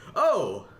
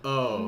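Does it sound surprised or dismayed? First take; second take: surprised; dismayed. First: It sounds like a happy surprise. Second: It sounds like reacting to bad news.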